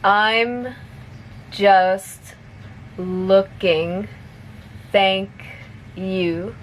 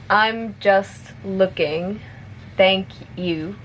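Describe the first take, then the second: First: It is spoken slowly. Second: It is spoken at a moderate pace. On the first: "I'll say it slowly first" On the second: "a little bit faster"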